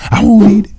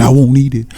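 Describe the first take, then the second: First: Very high, loud mock squeal; frantic refusal. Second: Higher, acted protest; panicked refusal. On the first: Red monkey fights swallowing the poison, frantic high squeal. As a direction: shoot the pitch way up in protest. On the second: Red monkey shakes her head at the poison, panicked refusal. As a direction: refuse in a raised, urgent pitch. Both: A narrator's reading.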